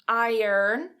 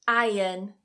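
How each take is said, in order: First: An R sound is pronounced in the word. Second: No R sound is pronounced in the word. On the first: "pronouncing it like iron with that er in there" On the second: "So notice that I'm not pronouncing that R"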